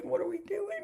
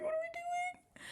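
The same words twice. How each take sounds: First: Pitched higher in mock disbelief; mock exasperation. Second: Squeaky mock wail, slow and softer. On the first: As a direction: throw up your hands, voice climbing. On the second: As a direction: whine it way up like a fake cry. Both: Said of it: "And I'm like".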